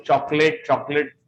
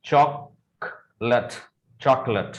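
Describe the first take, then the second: First: चॉकलेट with a full "late" ending; the common mispronunciation of चॉकलेट; ग़लत उच्चारण, चॉकलेट; wrong chocolate. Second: चॉकलेट slowly as "chok-lut", no late; drawn out, chok-lut; सही उच्चारण, चॉक-लट; correct pronunciation. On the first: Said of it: "सारे लोग चॉकलेट, चॉकलेट बोलते हैं". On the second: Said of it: "सही pronunciation इसका". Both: Shown as a demonstration.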